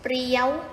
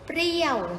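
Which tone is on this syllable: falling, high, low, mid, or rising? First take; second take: high; falling. First: The syllable is said on a high tone. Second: The syllable is said on a falling tone.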